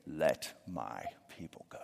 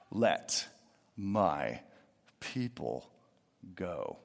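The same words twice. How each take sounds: First: Put-on whispered like a frail old man in a walker; a faint old man's whisper; feeble old man whisper. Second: Let, my, people, go each set apart with pauses, falling and quieter; "Let my people go" slow, low, a pause after each word; slow solemn pauses. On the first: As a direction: breathe it out like a tired eighty-year-old. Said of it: "I just picture him saying". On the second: Shown as a demonstration. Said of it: "And notice it says".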